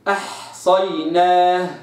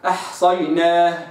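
First: The word is recited at a moderate pace. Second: The word is recited quickly. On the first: "هقرأ تدوير" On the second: "حذر"

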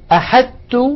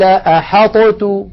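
First: A plain doubled t sound replaces both consonants. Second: The emphatic t is released with an echoing bounce. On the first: "أحدت بتاء مشددة" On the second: "لقلقلنا الطاء"

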